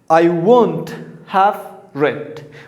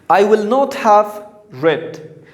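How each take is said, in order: First: The words will not are contracted together. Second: The words will not are said in full.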